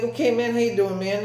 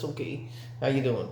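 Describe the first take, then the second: First: Greeting mimicked up high; high, imitated kid-like hello; high-pitched greeting. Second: Softer, casual retold greeting; understated, soft reply; low-key greeting. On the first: High-pitched greeting in retold exchange. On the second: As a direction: toss off the hello quietly in your own pitch. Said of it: "I was like this".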